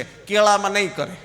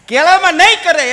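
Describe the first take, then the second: First: Said in the usual way. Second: કેળામાં નહીં કરે much louder and higher, laughing; punchline shout. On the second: Shown as a demonstration. Comedian repeats the banana punchline louder to the crowd. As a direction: hit the punchline hard.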